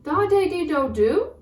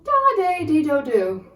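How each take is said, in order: First: The voice rises at the end. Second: The voice falls at the end.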